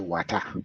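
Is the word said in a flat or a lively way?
flat. The word is said in a flat accent. This is how the other group says it. "They would say water"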